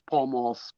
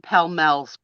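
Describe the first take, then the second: First: The vowels sound like the a in ball. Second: The vowels sound like the e in bell. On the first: This is the brand's actual name. The speaker calls it right. "but it was Pall Malls" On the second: This is how someone else mispronounced the brand. The speaker calls it wrong. "He called them Pell Mells"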